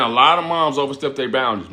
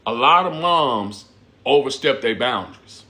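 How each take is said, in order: First: Said in the usual way. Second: A lot of moms said slowly, leaning on lot, falling at the end; slow emphatic warning. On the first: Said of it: "You know what I'm saying?". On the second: Real, not acted. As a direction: drag out lot and overstep. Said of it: "But I tell y'all this".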